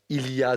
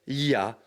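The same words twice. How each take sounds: First: Every sound of the phrase is pronounced fully. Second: Sounds are dropped and run together quickly.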